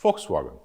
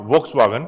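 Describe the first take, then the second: First: Volkswagen starting with an f, low and soft; German pronunciation. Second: Volkswagen with a v at the start; anglicised pronunciation. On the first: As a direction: say Volkswagen as Folkswagen. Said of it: "V is pronounced as Fo". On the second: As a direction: say Volkswagen as spelt, with English v. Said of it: "It's not Volkswagen". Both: Shown as a demonstration.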